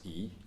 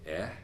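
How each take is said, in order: First: The vowel is a long 'ee' sound. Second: The vowel is a short open 'eh' sound. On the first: This is the ordinary English name of the letter. "is pronounced, ironically, in English to confuse things as E" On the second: This is the sound used for the air element. "in metaphysical expression, you say Eh"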